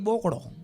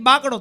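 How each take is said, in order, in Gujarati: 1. પહેલો સ્વર ગોળ 'oh' અવાજ છે. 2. પહેલો સ્વર ખુલ્લો 'ah' અવાજ છે. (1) "તો કે બોકડો" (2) "આપણે કઈ બાકડો"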